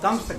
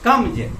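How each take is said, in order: First: The word ends with a hissing s sound. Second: The word ends with a buzzing z sound. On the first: The speaker calls it wrong. "कम्स गलत उच्चारण है" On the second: The speaker calls it right. "ज में हलंत होता है"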